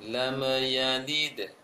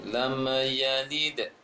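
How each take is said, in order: No difference in how they are said.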